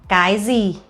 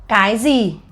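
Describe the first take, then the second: Both takes have the same delivery.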